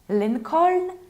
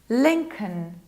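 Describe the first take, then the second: First: The second syllable is said with a full vowel. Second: The second syllable is said with a reduced vowel. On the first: The speaker calls it wrong. "Perhaps Lincoln" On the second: The speaker calls it right. "This is can. We reduce this ending"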